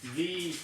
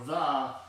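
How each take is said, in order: First: The vowel is a long ee sound. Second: The vowel is a short schwa sound. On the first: "This starts with a vowel, we'll use the e sound" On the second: "this starts with a consonant, we're going to use the uh sound"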